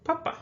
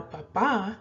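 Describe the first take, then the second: First: "papa" with a higher, stressed first "pa"; stress on first syllable. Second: "papa" with the weight on the final "pa"; stress on last syllable. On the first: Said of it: "talking about the pope". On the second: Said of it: "the accented one". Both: Shown as a demonstration.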